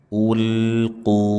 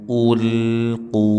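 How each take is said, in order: No difference in how they are said.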